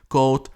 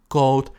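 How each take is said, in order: No difference in how they are said.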